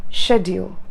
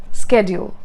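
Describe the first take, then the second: First: SCHEDULE beginning with SH; variant pronunciation. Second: SCHEDULE beginning with SK; "schedule" with a hard SK start; variant pronunciation. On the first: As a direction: say "schedule" as "shed-yool". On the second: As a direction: say "schedule" as "sked-yool". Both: Shown as a demonstration. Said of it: "Just like that".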